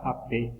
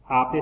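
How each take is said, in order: First: "ape" with the final e stressed; stress on last syllable. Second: "Ape" with the first syllable stressed. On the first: Teacher contrasting word meanings, final-syllable stress. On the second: Teacher showing accent changes meaning, first-syllable stress. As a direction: lean on the A in "Ape". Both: Shown as a demonstration. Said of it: "A través del uso del acento".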